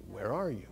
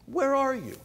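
First: Said in the usual way. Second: High, loud call, "Where" pushed hard. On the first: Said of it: "God calling Adam, first take". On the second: Shown as a demonstration. God calling out to hiding Adam, loud and high. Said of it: "God calling Adam, second take".

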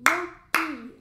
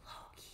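First: Loki punched out loud, clapping each syllable. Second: Loki whispered very softly. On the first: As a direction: Loki said loudly, one beat per syllable. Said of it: "Now we need to clap it". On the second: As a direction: Loki breathed out as a hushed whisper. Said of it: "And then we're gonna whisper it". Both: Shown as a demonstration.

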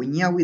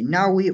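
First: Ñawi with a palatal ny; ñ variant. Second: Nawi with a plain n; n variant. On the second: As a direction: start nawi on a plain "n" sound. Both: Shown as a demonstration. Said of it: "dependiendo de la pronunciación".

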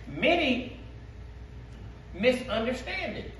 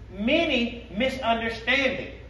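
First: "Many" drawn out slowly, with a pause before "misunderstand"; slow emphatic reading. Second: "Many" leaned on and stretched, the whole line slow; slow stressed repeat. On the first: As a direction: space the words "Many" and "misunderstand" apart. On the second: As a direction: hammer "Many" slowly. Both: Shown as a demonstration.

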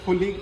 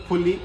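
No difference in how they are said.

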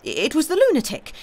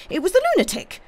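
First: High, loud insistence on the lunatic; wild fatigue. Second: Very high, loud frantic repeat; wild fatigue, escalating. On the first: Bohun insisting on the culprit, wild cry. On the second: Bohun insisting on the culprit, more frantic cry. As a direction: insist harder, pitch shooting right up. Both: A narrator's reading. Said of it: "with a sort of wild fatigue".

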